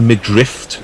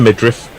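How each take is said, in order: First: The word ends with an added T sound. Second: The word ends with a plain F sound. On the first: The speaker calls it wrong. "not the midriff, as you hear a lot of people saying, which rather annoys me" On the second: The speaker calls it right. "took him in the midriff"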